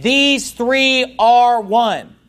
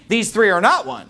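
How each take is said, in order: First: "These three are one" very slow, every word weighted, "These" leaned on; emphatic quote. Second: "not" hit hardest, mocking the heretics' claim; stress on not. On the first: Shown as a demonstration. Preacher stating the true doctrine, slow and emphatic. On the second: Preacher voicing the heretics' claim, stress on "not". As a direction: lean on "not" in "These three are not one". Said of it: "You know what they're saying?".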